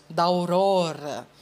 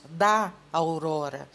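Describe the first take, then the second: First: "da aurora" run together as "dau-ro-ra", the two a sounds merged into one; teacher showing poetic elision, vowels merged into one syllable; elided. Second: "da aurora" with both vowels kept apart; teacher says "da aurora" as separate syllables da-au-ro-ra, no elision; unelided. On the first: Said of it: "em um poema nós não falamos da aurora". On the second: Teacher showing how we do not say it in a poem, each vowel kept. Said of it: "nós falamos da aurora". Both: Shown as a demonstration.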